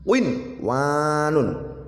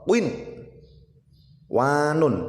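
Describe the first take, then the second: First: The word flows straight on without a pause. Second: There is a short pause before the w. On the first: The speaker calls it right. "harus dibaca jelas dan langsung" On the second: The speaker calls it wrong. "dibaca jeda, artinya berhenti sejenak baru membaca wa"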